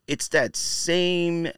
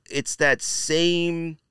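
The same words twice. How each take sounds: The two takes are said the same way.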